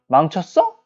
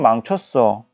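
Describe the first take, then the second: First: The voice rises at the end, like a question. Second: The voice falls at the end, like a statement. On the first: The speaker is asking a question. "라고 물어보는 것" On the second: The speaker states it as certain. "망쳤다는 것을 확신하듯이 얘기하는 거"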